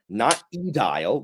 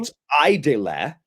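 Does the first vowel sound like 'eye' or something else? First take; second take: something else; eye. First: The first vowel does not sound like 'eye'. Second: The first vowel sounds like 'eye'. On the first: The speaker calls it wrong. "not edile. That's the worst one" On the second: The speaker calls it right. "she pronounces ... the A E as I"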